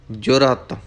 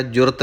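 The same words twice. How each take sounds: First: ਜੁਰਤ as "jo-rat", second vowel sounded; full second vowel. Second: ਜੁਰਤ run together as "jurt", second vowel reduced; swallowed vowel. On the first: Teacher correcting learners, ਜੁਰਤ with its second vowel fully sounded. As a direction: give ਜੁਰਤ two clear syllables, full "a" in "rat". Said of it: "ਐੜਾ ਵੀ ਬੋਲਣਾ ਹੈ". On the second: Teacher showing learners the error, ਜੁਰਤ squashed to "jurt". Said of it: "ਜੁਰਤ ਨਹੀਂ ਕਹਿਣਾ". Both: Shown as a demonstration.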